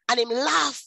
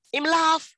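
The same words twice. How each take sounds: First: Said in the usual way. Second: Him laugh, said higher and pressing hard on laugh; stress on laugh. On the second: Real, not acted. Retelling her ex's reaction, emphatic repeat stressing laugh. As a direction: lean into laugh with disbelief.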